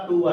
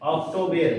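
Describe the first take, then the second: First: It is said with 'oo' as usual. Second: It is said with 'oh' as spelled. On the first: "इसका होता है आपका अक्टूबर" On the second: "जैसा लिखा वैसा हमने यहाँ उच्चारण कर दिया"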